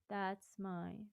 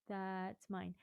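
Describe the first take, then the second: First: The consonants are spoken very softly. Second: The same.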